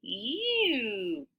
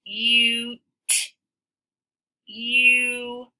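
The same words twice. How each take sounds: First: Quiet "Cute" with long "U"; soft long U. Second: "Cute" with a clear long "U"; long U demo. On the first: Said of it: "It said its name". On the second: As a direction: stretch the "U" in "Cute". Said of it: "Let's look at the word cute". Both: Shown as a demonstration.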